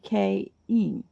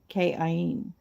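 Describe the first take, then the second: First: It is run together as K-in. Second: It is split into K and Ain. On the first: The speaker calls it right. "No, it wouldn't be. It would be K-in" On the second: The speaker calls it wrong. "would be K, and then Ain"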